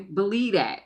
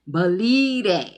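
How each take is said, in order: First: Said in the usual way. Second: Loud, drawn-out catchphrase voice; Martin. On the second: Retold or imitated. Quoting a catchphrase to viewers, loud slow comic impression. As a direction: belt it out slowly, stretching the middle. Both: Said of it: "in my Martin voice".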